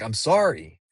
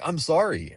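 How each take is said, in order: First: Sincere apology. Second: Flabbergasted apology. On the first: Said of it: "like, not in an angry way". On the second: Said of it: "flabbergasted that he was so angry". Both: Retold or imitated.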